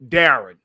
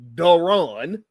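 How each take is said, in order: First: The stress is on the first syllable. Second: The stress is on the second syllable. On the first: This is the speaker's own name. The speaker calls it right. "it's Darren" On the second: This is the other man's name. The speaker calls it wrong. "my name is not Daron"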